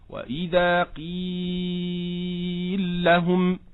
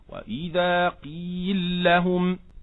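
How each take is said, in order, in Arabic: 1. حرف المد في 'qeel' يُمَدّ مدًا متوسطًا. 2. حرف المد في 'qeel' يُمَدّ مدًا قصيرًا. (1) "وتوسط، هكذا" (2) "من قصر، هكذا"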